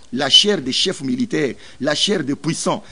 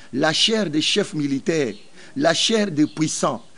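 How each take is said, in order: No difference in how they are said.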